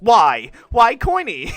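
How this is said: It sounds defensive and sharp.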